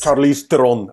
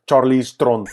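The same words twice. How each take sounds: First: It is said in a plain English accent. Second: It is said in an Afrikaans accent.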